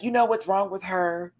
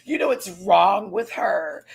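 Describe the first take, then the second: First: Hushed gossip behind Tina's back; whispered gossip. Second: Slow, drawn-out mock gossip voice; lightly voiced Mistress gossiping aloud. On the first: Retold or imitated. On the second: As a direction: say it slowly, savouring the shade. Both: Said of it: "you are now like".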